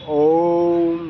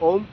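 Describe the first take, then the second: First: The Om sound is held long. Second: The Om sound is short.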